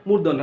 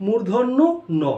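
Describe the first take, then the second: First: "মূর্ধন্য" run together as mur-don-no; shortened mispronunciation. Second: "মূর্ধন্য" rising, pause, then "ন"; corrected, separated pronunciation. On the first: Teacher showing the shortened form, "মূর্ধন্য" as one word murdonno. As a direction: say "মূর্ধন্য" as one word, final letter swallowed. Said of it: "আসলে মূর্ধন্য না". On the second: Teacher undoing the shortened name, "মূর্ধন্য", pause, separate "ন". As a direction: split "মূর্ধন্য ন" into mur-dhon-no, gap, no. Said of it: "ওইটাকে সংক্ষেপ করছে". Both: Shown as a demonstration.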